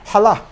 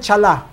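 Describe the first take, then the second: First: The word starts with a throaty back sound. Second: The word starts with a soft 'ch' sound. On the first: The speaker calls it right. "yung C nasa likod ng dila" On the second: The speaker calls it wrong. "Hindi yan chala"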